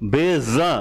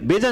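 First: The consonant is a buzzing z sound. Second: The consonant is a plain j sound. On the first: The speaker calls it right. "ज में कंपन है" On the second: The speaker calls it wrong. "बेजा नहीं होता"

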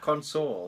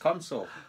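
First: The stress is on the second syllable. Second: The stress is on the first syllable. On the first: The speaker calls it wrong. "It's not console" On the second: The speaker calls it right. "It's console"

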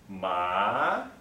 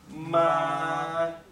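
First: The pitch starts low and rises upward. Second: The pitch stays level throughout the syllable. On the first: It means numb. "it starts low, like I mentioned, and moves upwards like this" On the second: It means mother. "the first tone is a flat tone like this"

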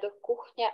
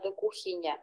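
First: The vowel in the word is held longer. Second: The vowel in the word is said shorter. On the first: The speaker calls it wrong. "не до кухні" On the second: The speaker calls it right. "А коротше до кухні"

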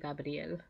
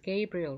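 First: The name is said with Spanish sounds and stress. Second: The name is said with English sounds and stress. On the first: "In Spanish I say Gabriel" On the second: "but in English it's Gabriel"

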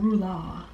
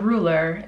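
First: The word is said in a fancy, official-sounding way. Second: The word is said in an ordinary, plain way. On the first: The speaker calls it right. "You gotta say it like that too, to be like more official" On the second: The speaker calls it wrong. "It's not a ruler"

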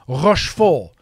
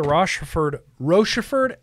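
First: The name is said with French-style sounds. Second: The name is said with plain English sounds. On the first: "in a French sort of accent" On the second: "am I saying that wrong?"

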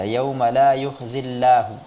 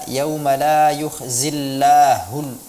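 First: The ending sound is weakened and unclear. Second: The ending sound is pronounced clearly and fully. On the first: The speaker calls it wrong. "kurang terdengar jelas, ya, seperti tashil dibaca" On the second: The speaker calls it right. "tapi dia seharusnya dibaca"

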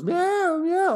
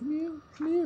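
First: It is said at normal, louder volume. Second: It is said much more quietly.

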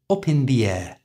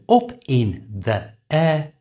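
First: The words are joined in one smooth stream. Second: The words are said separately, without linking. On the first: "has become up in the air" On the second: "So up in the air has become"

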